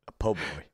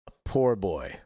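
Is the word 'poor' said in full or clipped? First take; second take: clipped; full. First: The word 'poor' is clipped to 'po'. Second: The word 'poor' is said in full, with its r. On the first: The speaker calls it right. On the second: The speaker calls it wrong.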